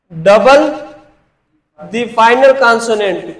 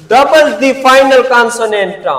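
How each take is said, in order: First: Slow rule repeat; slow dictation. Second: Slow, stressed teacher dictation. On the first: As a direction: double the final consonant split and stretched. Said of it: "किसको?". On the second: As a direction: double the final consonant drawn out very slowly. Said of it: "one syllable verbs". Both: Shown as a demonstration.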